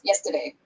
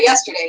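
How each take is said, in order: First: The word is said in a Louisiana-style way. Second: The word is said in a standard way. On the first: "He says yesterday or something like that" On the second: "he doesn't say yesterday"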